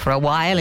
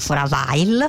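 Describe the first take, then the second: First: The w in while is sounded in standard English. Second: The w in while is sounded with a foreign accent. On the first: This is how it is normally said. The speaker calls it right. "anziché for a while" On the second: This is how the accented speaker says it. The speaker calls it wrong.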